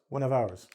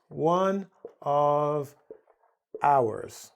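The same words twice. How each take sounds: First: The word 'of' shrinks to a v sound. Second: The word 'of' is said as a full syllable. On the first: "in English we reduce it to" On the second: "that's really this"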